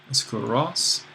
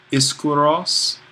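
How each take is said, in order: First: Said in the usual way. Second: Slow, careful Iskuros with a rising end; Greek word said slowly. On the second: Shown as a demonstration. Teacher sounding out Iskuros for students, slow and careful. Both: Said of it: "Strong is a new word".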